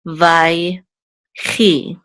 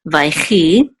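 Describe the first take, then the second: First: "vai, chi" split by a clear pause; syllable by syllable. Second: "vaichi" as one word, no pause; syllables joined. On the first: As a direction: sound out "vai", stop, then "chi". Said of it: "We'll say chi". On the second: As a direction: run "vai" straight into a throaty "chi". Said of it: "So this is just vaichi". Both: Shown as a demonstration.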